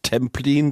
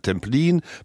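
First: The stress is on the first syllable. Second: The stress is on the last syllable. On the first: The speaker calls it wrong. "Sie haben es falsch betont" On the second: The speaker calls it right. "sondern Templin, Berlin, Schwerin, Koplin"

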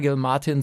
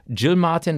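First: The name starts with a hard G sound. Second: The name starts with a J sound.

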